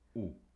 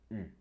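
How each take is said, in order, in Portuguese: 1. Vogal posterior, som 'oo' simples. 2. Vogal anterior, como 'ee', com os lábios arredondados. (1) "E não U" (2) "é o som U, não é U. Ouçam bem"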